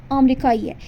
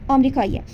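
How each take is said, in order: The two takes are said the same way.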